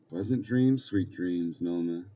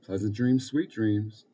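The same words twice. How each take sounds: First: Put-on mildly reluctant child's good night. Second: Said in the usual way. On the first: A narrator's reading. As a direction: echo it back, dropping away at the end. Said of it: "Pete said reluctantly".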